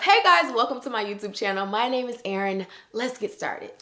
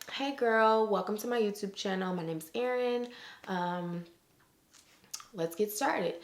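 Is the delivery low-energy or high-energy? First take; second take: high-energy; low-energy. First: It is said with amped-up, high energy. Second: It is said with relaxed, low energy.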